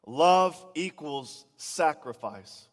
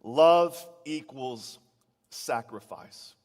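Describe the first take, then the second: First: "Love equals sacrifice" in one slow, louder sweep; a preacher repeating "Love equals sacrifice" so notes catch it; slow emphatic restatement. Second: A preacher spelling out "love equals sacrifice" for note-takers; slow emphatic statement. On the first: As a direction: punch "Love" and drag each word out. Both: Shown as a demonstration. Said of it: "make this really, really clear".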